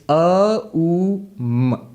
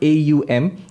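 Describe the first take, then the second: First: Each part is said as a plain vowel sound. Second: Each part is said as an English letter name. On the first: The speaker calls it right. "It's A U M" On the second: The speaker calls it wrong. "Not in English, you write A U M. It's not A U M"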